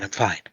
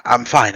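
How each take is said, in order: First: The repeat much softer, fading out. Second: Said in the usual way. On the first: Acted. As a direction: say it again, trailing away unconvinced.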